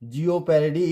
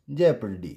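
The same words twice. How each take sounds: First: Jeopardy as jee-o-par-dy; O sounded. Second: Jeopardy as JEP-ar-dy; silent O. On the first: Teacher shows the wrong reading, O sounded. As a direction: misread jeopardy with a voiced o. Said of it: "not jeopardy". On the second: Teacher gives the correct reading, silent O. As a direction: say jeopardy without the o, falling. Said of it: "it's jeopardy". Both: Shown as a demonstration.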